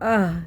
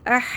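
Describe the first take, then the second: First: The h sound is deep, from the chest. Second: The h sound is light and plain. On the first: The speaker calls it right. "सीने से निकालें" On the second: The speaker calls it wrong. "अह नहीं पढ़ना"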